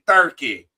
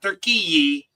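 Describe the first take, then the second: First: The name is said like English 'Turkey'. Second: The name is said like Turkish 'Türkiye'. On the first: The speaker calls it right. "It's Turkey" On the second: The speaker calls it wrong. "So it's not Turkey"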